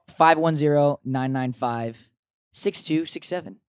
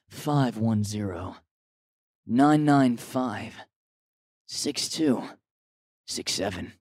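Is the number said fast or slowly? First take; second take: fast; slowly. First: The number is read out quickly. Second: The number is read out slowly.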